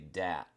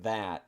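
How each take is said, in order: First: The word begins with a 'd' sound. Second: The word begins with a 'th' sound. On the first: "at the beginning is replaced with a D sound" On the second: "instead of that"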